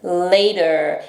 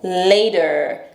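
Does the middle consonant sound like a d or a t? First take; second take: d; d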